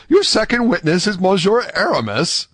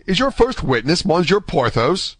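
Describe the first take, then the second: First: High, incredulous question; greater astonishment. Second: High, surprised question; astonished. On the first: D'Artagnan asking about the second witness, greatly astonished. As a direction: ask in amazement, pitched right up. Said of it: "an accent of greater astonishment". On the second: D'Artagnan asking about Athos's first witness, astonished. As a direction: ask in surprise, pitched up. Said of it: "cried D'Artagnan". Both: A narrator's reading.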